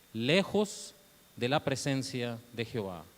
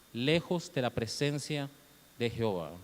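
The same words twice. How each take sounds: No difference in how they are said.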